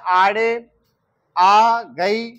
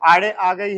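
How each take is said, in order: First: It is spoken at an ordinary, unhurried speed. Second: It is spoken fast with the words run together. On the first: "normal speed है तो इतना बोलेंगे आड़े आ गई ऐसे" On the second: "तेज speed होगा तो एक साथ बोलेंगे"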